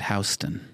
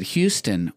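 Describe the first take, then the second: First: Houston said as HOW-stun; "Houston" with an OW first vowel; alternate pronunciation. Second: Said in the usual way. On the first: Shown as a demonstration. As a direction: say "Houston" to open like "house". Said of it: "or is it Houston". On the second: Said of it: "is it Houston or".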